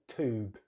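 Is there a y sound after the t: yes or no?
no. No y sound follows the t. "Americans just say tube"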